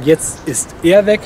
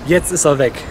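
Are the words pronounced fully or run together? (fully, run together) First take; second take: fully; run together. First: Each word is pronounced fully and separately. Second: The words are squeezed together into one run. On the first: "man könnte natürlich hochdurch sagen" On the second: "es klingt so ein bisschen zusammengezogen wie"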